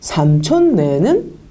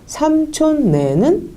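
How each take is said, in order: First: The first syllable starts on a low pitch. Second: The first syllable starts on a high pitch.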